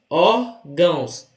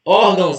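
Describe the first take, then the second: First: "órgãos" slowly split as ór... gãos; syllable by syllable. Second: Said in the usual way. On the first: Shown as a demonstration. Teacher showing two syllables to the class, "órgãos" broken slowly in two. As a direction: separate both syllables of "órgãos" with a pause. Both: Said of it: "Duas sílabas".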